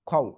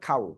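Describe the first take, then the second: First: The first vowel is short and quick. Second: The first vowel is drawn out long. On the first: The speaker calls it right. "খও সঠিক হবে। ... খ জবর খা হয় না, খ হয়।" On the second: The speaker calls it wrong. "খ জবর খা হয় না"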